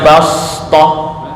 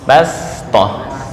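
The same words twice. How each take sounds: First: The s sound is a heavy, emphatic s. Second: The s sound is a plain, light s. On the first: The speaker calls it wrong. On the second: The speaker calls it right.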